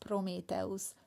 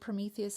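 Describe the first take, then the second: First: The name has a Hungarian pronunciation. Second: The name has its usual English pronunciation.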